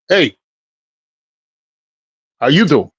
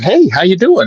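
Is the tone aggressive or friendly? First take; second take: aggressive; friendly. First: The greeting sounds hard and aggressive. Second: The greeting sounds warm and friendly. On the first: It signals no wish to chat. "that aggressive thing" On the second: It invites the other person to chat. "I'm not going"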